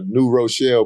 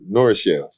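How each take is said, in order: First: The name is said as two clear words. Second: The name is run together into one word. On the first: This is the usual way to say it. "they're from uh, New Rochelle" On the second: This is how a local says it. "when he pronounced, it, he said Norrichelle"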